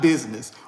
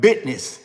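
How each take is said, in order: First: The word has its usual modern pronunciation. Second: The word has an older, folksy pronunciation. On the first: "Not business" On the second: "I'm going old school on y'all"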